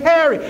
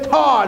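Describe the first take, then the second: First: The name is said clearly with two syllables. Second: The name is clipped to one slurred syllable. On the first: This is how people talk in the business world. The speaker calls it right. "I had to say Terry. I had to use pronunciation" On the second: This is how people talked where he came from. The speaker calls it wrong. "I couldn't say tar no more. They couldn't understand me"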